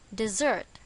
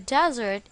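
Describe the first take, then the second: First: The stress is on the second syllable. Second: The stress is on the first syllable. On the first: It names a sweet dish. "On the second syllable" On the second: It names a dry place. "On the first syllable, since it is a place"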